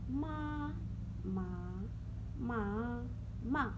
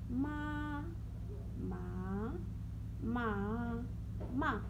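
No difference in how they are said.

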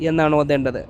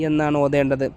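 The two takes are said the same way.

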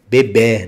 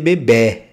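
First: The final vowel is an open e sound. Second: The final vowel is a closed e sound. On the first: The speaker calls it right. "Que no português café, por exemplo" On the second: The speaker calls it wrong. "mas você não vai dizer bebê"

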